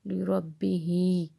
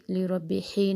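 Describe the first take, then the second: First: لربہ said slowly and cleanly, without the added ہی; correct pronunciation. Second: لربہ ہی with an added ہی sound, said quickly as the error; wrong pronunciation. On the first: Teacher showing students the correct لربہ, slow and clean. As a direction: draw out لربہ carefully, the right way. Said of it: "نہیں کہنا". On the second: Teacher showing students the mistake: لربہ ہی with an extra ہی. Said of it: "لربہ ہی نہیں کہنا". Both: Shown as a demonstration.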